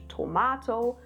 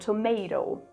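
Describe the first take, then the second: First: The word is said in a British accent. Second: The word is said in an American accent. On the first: The speaker calls it right. "like in the British tomato" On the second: The speaker calls it wrong. "not like in the American dance or tomato"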